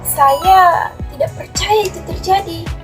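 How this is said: It is said in a surprised, shocked tone.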